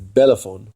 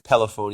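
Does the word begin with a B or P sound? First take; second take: B; P. First: The word begins with a B sound. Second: The word begins with a P sound. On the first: "belephone with a B" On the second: "if the guy says pelephone"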